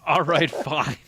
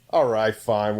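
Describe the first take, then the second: First: Hammed-up indifferent engineer; mock dismissive guy. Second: Said in the usual way. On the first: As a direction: toss it off like you don't care. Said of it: "That's what he said". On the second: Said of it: "And he's like".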